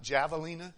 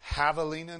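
First: It is pronounced the Trinidadian way. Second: It is pronounced the Spanish way. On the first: The speaker calls it wrong. "not javelina. As they do from Trinidad" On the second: The speaker calls it right. "Even put it in Spanish"

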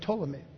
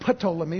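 First: The initial P is silent; it starts with T. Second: The initial P is pronounced before the T. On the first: The speaker calls it right. "but Ptolemy" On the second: The speaker calls it wrong. "Not Ptolemy"

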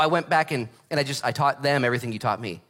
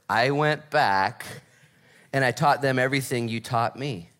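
First: It is said at a normal pace. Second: It is said more slowly.

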